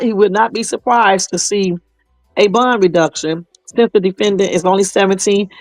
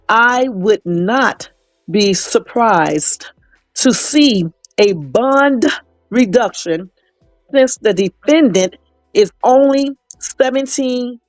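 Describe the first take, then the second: First: It is said at a normal pace. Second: It is said very slowly and deliberately.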